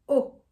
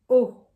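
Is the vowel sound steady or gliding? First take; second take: gliding; steady. First: The vowel glides toward another sound. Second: The vowel stays steady without gliding. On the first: The speaker calls it wrong. "Not oh" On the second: The speaker calls it right. "a straight O"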